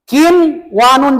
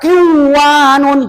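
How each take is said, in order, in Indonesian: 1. Bunyi n dilafalkan dengan jelas sebelum w. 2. Bunyi n menyatu dengan w yang mengikutinya. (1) "Tetap ini diidharkan" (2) "jangan dibaca kin wanun, salah"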